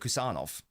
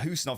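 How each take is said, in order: First: The name starts with a K sound. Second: The name starts with an H sound. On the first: This is how it is said in Uzbekistan. "I like how the Uzbek pronunciation is, so I say Kusanov" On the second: This is how it is said elsewhere in Central Asia. "But Husanov is also correct"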